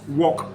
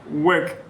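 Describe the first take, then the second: First: The vowel sounds like 'aw' in law. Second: The vowel sounds like 'er' in bird. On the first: The speaker calls it wrong. "not walk" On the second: The speaker calls it right. "is pronounced work"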